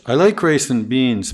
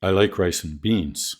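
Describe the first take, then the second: First: Beans held up, sentence not done; unfinished list tune. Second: Beans falls, softer, done; final falling tune; finished tune. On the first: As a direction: keep beans up as if more follows. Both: Shown as a demonstration. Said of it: "Finished versus unfinished".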